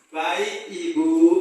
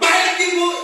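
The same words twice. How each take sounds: First: It is said in a soft, polite voice. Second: It is said in a harsh, impolite voice.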